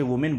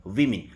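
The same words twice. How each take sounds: First: "वुमेन" said as woo-men, the wrong way for the plural; common wrong pronunciation. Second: "वीमेन" with a clear vee-min first syllable; correct pronunciation. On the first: Teacher showing students' common mistake with the plural, woo-men. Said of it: "जो कि गलत है". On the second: Teacher giving the correct plural after the mistake, vi-min. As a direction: say "वीमेन" as vi-min, not woo-men. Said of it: "इसका pronunciation होता है वीमेन". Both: Shown as a demonstration.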